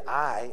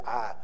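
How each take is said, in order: First: "I" said with a full "eye" glide; careful textbook "I", not "Ah"; standard I. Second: "I" flattened to a Southern "Ah". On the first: Pastor demonstrates the proper "I" he tries for. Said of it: "I try to say". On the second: Pastor shows his Southern "I" he tries to hide. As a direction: drop the glide, say "I" as "Ah". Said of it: "instead of". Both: Shown as a demonstration.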